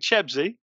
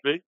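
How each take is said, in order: First: The name is said as Cheb-see. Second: The name is said as Ches-bee. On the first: The speaker calls it right. "so it's Shane Chebsy" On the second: The speaker calls it wrong. "Not Chesby"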